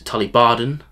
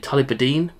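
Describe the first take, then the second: First: The last syllable sounds like 'den'. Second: The last syllable sounds like 'deen'. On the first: The speaker calls it right. "the correct word, which is Tulibaden" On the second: The speaker calls it wrong. "I say Tulibadine, just as I have been my whole life"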